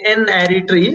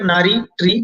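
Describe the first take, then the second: First: It starts with the letter name 'en'. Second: It starts with 'na', like one word 'nari'. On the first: The speaker calls it right. "you should uh, say N-ary tree" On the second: The speaker calls it wrong. "This seems like Nari tree"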